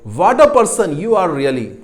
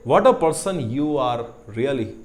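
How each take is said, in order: First: It is said in an angry tone. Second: It is said in a warm, affectionate tone. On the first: The speaker is annoyed with the person. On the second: The speaker admires or is fond of the person.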